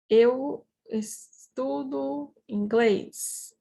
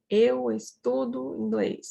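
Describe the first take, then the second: First: Slow, with gaps between the words. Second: Said in the usual way. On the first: Shown as a demonstration. Teacher models the sentence for students, slowly word by word.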